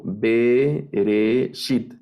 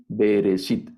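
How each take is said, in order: First: "bereshit" very slow, in three stretched syllables; teacher slowly splitting "bereshit" into its syllables; syllable-by-syllable breakdown. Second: Said in the usual way. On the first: Shown as a demonstration. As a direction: draw out "bereshit" with gaps between syllables. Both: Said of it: "la segunda sílaba, tengo".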